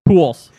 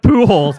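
First: The name sounds like the word 'pools'. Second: The name does not sound like 'pools'. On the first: The speaker calls it right. "Like pools" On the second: The speaker calls it wrong. "he doesn't pronounce it like Pujols"

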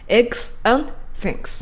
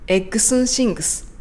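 First: The word 'and' is fully and clearly pronounced. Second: The word 'and' is shortened to a quick 'n'. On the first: "綺麗に発音した時の英語の音" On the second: "エクスンって何でしょうか？"

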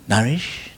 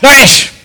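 First: The name is called in a relaxed, friendly tone. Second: The name is called in a sharp, demanding tone. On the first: The caller is friendly and nothing is wrong. "Ah, that is okay. That's okay, I'm all right" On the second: The caller is annoyed and demanding attention. "Both of my wife, okay?"

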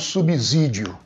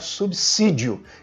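First: The s after sub sounds like a buzzing z. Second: The s after sub sounds like a hissing s. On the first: The speaker calls it wrong. "e não subsídio" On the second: The speaker calls it right. "o certo realmente é pronunciar subsídio"

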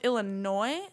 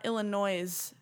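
First: The final S is silent. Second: The final S is pronounced aloud. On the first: The speaker calls it right. "it is pronounced Illinois" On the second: The speaker calls it wrong. "like the S on the end has a sound"

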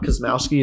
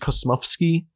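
First: The name is said the American way. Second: The name is said the Polish way.

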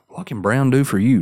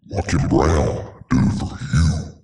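First: It is said in his natural voice. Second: It is said in a put-on voice.

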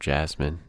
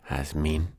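First: The name is pronounced the English way. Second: The name is pronounced the Spanish way. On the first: "you pronounce it English" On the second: "it's technically Jasmin"

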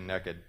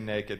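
First: It is said the Texan way, like 'nekkid'. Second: It is said in a standard general way.

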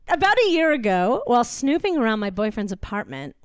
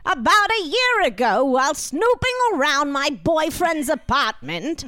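First: It is read in the speaker's ordinary voice. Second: It is read in a put-on, aged, old-fashioned voice.

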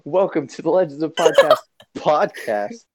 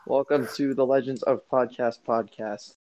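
First: It is said with more energy and enthusiasm. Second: It is said flatly, with little energy. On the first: The speaker calls it right. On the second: The speaker calls it wrong.

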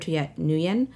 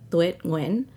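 First: The name is said with English-style sounds. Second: The name is said with Vietnamese sounds. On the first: It is an easier phonetic version for others. The speaker calls it wrong. "that is not correct. That is like not the way you pronounce it in Vietnamese" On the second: It is the original native pronunciation. The speaker calls it right. "in Vietnamese, it's like"

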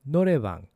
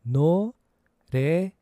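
First: It is said at a faster pace. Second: It is said at a slower pace.

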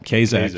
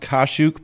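First: The surname has an Americanized pronunciation. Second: The surname has its original Polish pronunciation. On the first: This is the form the family adopted to sound American. "They actually say Kazak because they thought that sounded American" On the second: This is the family name's original form. "it's actually pronounced Kashuk"

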